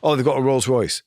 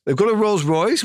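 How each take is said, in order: First: Said in the usual way. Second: A high, rising question of mock surprise; surprised disbelief. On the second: Retelling producers' surprise at the Rolls Royce, rising high. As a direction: lift it up in disbelief at the luxury. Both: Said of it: "Well, that's a big car".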